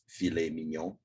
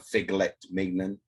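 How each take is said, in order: First: The first word has no G sound. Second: The first word has a hard G sound. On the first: The speaker calls it right. "It is filet mignon" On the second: The speaker calls it wrong. "we don't say uh, figlet mignon"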